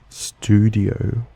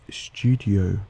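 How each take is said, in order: First: It is said in an American accent. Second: It is said in an Australian accent. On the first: "The American way to say them would be" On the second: "also a feature of the Australian accent"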